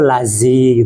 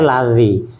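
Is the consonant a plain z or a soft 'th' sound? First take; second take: plain z; soft th. First: The consonant is a plain z sound. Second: The consonant is a soft 'th' sound. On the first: The speaker calls it wrong. "Ada yang orang-orang kota itu lazi gitu" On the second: The speaker calls it right. "Sebenarnya lazi"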